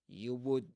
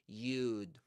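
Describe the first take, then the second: First: Both words are said fully and separately. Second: The two words are contracted into one syllable.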